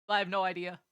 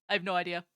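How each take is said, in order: The two takes are said the same way.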